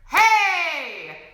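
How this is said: The vocal folds close hard and percussively. "When we have a glottal pressure"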